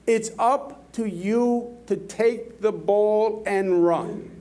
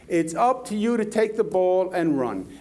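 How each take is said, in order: First: Slow, weighted delivery, every word of "It's up to you to take the ball and run" leaned on; slow emphatic. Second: Said in the usual way. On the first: Shown as a demonstration. Speaker urges the audience to act, slow and emphatic. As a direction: drive the point home word by word.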